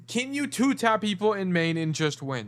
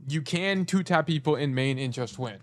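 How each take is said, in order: First: High-pitched question, posed to the student; rhetorical question. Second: Said in the usual way. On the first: Shown as a demonstration. Coach raising the student's question before answering it, high rhetorical question. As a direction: pose it high, as if asked by a student.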